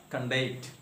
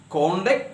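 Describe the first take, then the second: First: "conduct" stressed on the second syllable; verb stress. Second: "conduct" stressed on the first syllable; noun stress. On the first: Teacher giving the verb example, second-syllable stress. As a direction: say con-DUCT, weight on the end. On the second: Teacher giving the noun example, first-syllable stress. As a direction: say CON-duct, weight on the front. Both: Shown as a demonstration. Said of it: "noun or adjective as well as verb".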